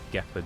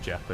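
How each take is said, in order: First: The word begins with a hard g sound. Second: The word begins with a soft j sound. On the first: The speaker calls it right. "it's like Gepard you're supposed to say" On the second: The speaker calls it wrong. "I'm pretty sure it's not Jeopard"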